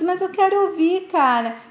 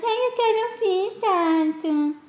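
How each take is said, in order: First: Said in the usual way. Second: High, whiny mimicry of a little brother; a sneering big brother mimicking the kid in a high whine; mocking whiny imitation. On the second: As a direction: parrot him back in a higher, mocking whine. Tato mocks Dudu's protest.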